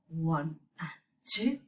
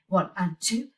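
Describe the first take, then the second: First: The counting is at a slow pace. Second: The counting is at a fast pace. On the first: "Or I may even be saying it slower" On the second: "sometimes I might be saying it faster"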